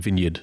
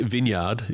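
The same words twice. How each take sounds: First: The last part of the word is said quickly. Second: The last part of the word is drawn out.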